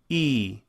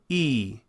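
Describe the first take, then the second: Both takes have the same delivery.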